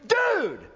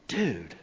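First: The word is said with excitement. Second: The word is said with disgust. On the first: The speaker is thrilled. "used in such a way that communicates excitement" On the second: The speaker is repulsed. "used to communicate disgust"

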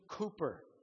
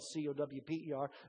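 First: The first syllable does not rhyme with 'cow'. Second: The first syllable rhymes with 'cow'. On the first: The speaker calls it right. "but it's William Cowper" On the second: The speaker calls it wrong. "many of us mispronounce his name as Cowper because it's spelled C-O-W-P-E-R"

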